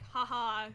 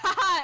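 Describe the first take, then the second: First: The laugh is small and quiet. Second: The laugh is big and loud.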